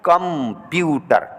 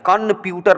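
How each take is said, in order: First: The first syllable ends in an m sound. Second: The first syllable ends in an n sound. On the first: The speaker calls it right. "बल्कि यहाँ पे म की आवाज निकालनी पड़ेगी" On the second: The speaker calls it wrong. "न की आवाज नहीं निकालेंगे, कंप्यूटर नहीं कहेंगे, गलत हो जाएगा"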